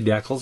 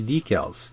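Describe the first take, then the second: First: It is said with a Canadian pronunciation. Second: It is said with an American pronunciation. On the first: This is how it is said in Canada and Britain. "That's how we say it up here. We say decals" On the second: This is how it is said in the United States. "Americans say decals"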